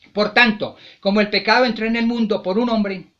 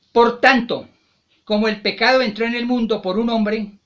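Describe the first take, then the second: No difference in how they are said.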